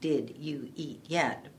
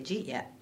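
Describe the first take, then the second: First: Each word is said fully and separately. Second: The first three words merge into one quick syllable. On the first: "in a dictionary, you might see" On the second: "a lot of people in speaking fast will just say"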